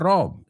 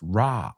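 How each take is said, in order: First: The vowel is a rounded oh sound. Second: The vowel is an open ah sound. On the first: The speaker calls it wrong. "It's not Rob" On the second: The speaker calls it right. "it's Ra"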